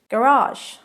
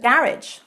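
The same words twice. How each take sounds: First: It has the American stress pattern. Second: It has the British stress pattern. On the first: "garage in American" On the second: "garage in British"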